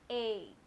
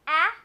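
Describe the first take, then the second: First: The vowel is said as a longer, drawn-out sound. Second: The vowel is said as a short, quick sound. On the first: "long vowel sounds" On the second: "short vowel sounds"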